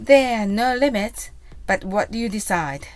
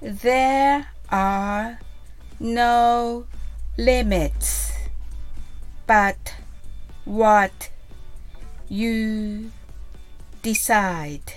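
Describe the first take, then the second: First: It is said fast. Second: It is said slowly.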